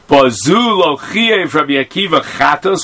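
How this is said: It is said as a question. It asks whether this was held to be a violation. The speaker calls it right. "I should have read it with a question mark"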